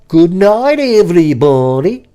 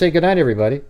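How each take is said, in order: First: It is said in an exaggerated, dramatic way. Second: It is said in a plain, ordinary way. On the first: The speaker calls it wrong. "You like this? You go" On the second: The speaker calls it right. "why not just"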